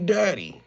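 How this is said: It is said in a tender, caressing way.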